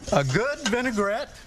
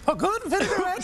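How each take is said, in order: First: It is said in the speaker's natural voice. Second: It is said in a put-on imitation voice.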